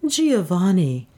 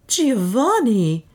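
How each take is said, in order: First: Slow, composed address, falling gently; composed and unhurried; calm. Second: High, drawn-out cry of his name; high, stretched exclamation; startled exclamation. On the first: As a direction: say the name calmly, without alarm. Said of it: "said Beatrice calmly". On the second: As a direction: call out the name in shock, falling away. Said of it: "exclaimed Beatrice". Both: A narrator's reading.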